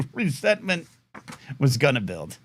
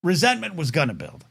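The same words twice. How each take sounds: First: Laughing, ominous echo of the phrase; mock-menacing repeat. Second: Said in the usual way. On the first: Shown as a demonstration. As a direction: say it again like a dark movie trailer line.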